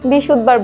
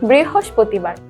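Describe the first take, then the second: First: The word is said in a shortened form. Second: The word is said with every syllable. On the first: The speaker calls it wrong. "আমরা অনেকেই বিশুদ্ধবার বলে থাকি। এটা কিন্তু আজকের পরে থেকে আর বলা যাবে না।" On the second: The speaker calls it right. "সবাই বলবো বৃহস্পতিবার।"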